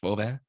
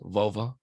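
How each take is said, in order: First: The word is said with a Spanish pronunciation. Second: The word is said with an English pronunciation.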